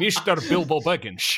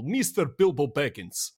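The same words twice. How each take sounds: First: Put-on Scottish accent, "Mister" said as "Mishter"; hammed-up Scottish star impression with shushed s; Sean Connery. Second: Lightly imitated Russian pronunciation of the name; Russian accent. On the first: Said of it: "like, a Sean Connery thing". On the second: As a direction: say "Mister Bilbo Baggins" as a Russian would. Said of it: "the way that Russians pronounce Bilbo Baggins".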